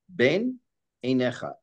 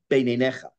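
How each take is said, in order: First: The two words are kept apart with a break. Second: The two words are run together without a break. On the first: The speaker calls it right. "to prevent you from swallowing two words together" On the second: The speaker calls it wrong. "It's not ben einecha"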